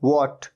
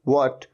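No difference in how they are said.

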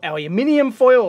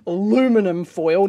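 First: It is said the Australian way. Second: It is said the American way.

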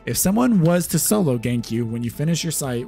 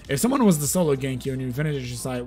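First: It is read slowly and carefully. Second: It is read quickly and carelessly.

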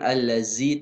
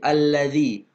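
First: The middle consonant is not a 'th' sound. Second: The middle consonant is a soft 'th' sound. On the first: The speaker calls it wrong. "bukan allazi" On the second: The speaker calls it right. "tapi allazi. Huruf za, ujung lidahnya kena gigi"

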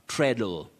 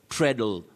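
First: The first vowel sounds like the vowel in 'bed'. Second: The first vowel sounds like the vowel in 'bed'.

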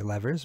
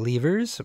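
First: It is said the American way. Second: It is said the British way.

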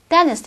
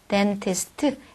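First: The t after the n is dropped. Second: The t after the n is clearly pronounced. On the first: The speaker calls it right. "n 다음에 t 발음이 안 나니까" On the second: The speaker calls it wrong. "dentist가 아니라"

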